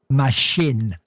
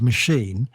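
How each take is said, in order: First: The last syllable ends with a short 'in'. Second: The last syllable ends with a long 'een'. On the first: The speaker calls it wrong. "pronouncing it as machine, M A S H I N" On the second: The speaker calls it right. "couldn't pronounce it as machine"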